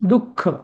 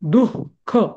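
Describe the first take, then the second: First: The visarga becomes a doubled k sound. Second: The visarga is voiced as a breathy h. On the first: The speaker calls it right. "आपण कसं म्हणतो? दुःख, दुःख असं" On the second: The speaker calls it wrong. "आपण असं दुःख असं म्हणतो का? नाही"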